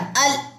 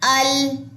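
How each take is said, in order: First: The L sound is cut off abruptly. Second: The L sound stops at a middle length. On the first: The speaker calls it wrong. "मैंने ऐसे नहीं पढ़ा" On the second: The speaker calls it right. "आवाज एक दरमियानी सी जगह पे जाकर रुक रही है"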